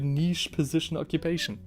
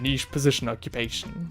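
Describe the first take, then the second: First: It is read in the speaker's ordinary voice. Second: It is read in a put-on movie-character voice.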